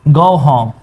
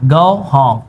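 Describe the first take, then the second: Both takes have the same delivery.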